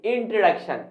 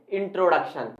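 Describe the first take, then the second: First: इंट्रोडक्शन as in-truh-DUK-shun; correct pronunciation. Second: इंट्रोडक्शन with a full "tro"; common mispronunciation. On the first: Teacher revealing the right form, correct pronunciation. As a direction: reduce "tro" in इंट्रोडक्शन to a weak "truh". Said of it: "सही pronunciation क्या होगा". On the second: Teacher showing the frequent mistake, common mispronunciation. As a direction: clear long o in the middle of इंट्रोडक्शन. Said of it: "सबसे ज्यादा ही गलत बोलते हैं". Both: Shown as a demonstration.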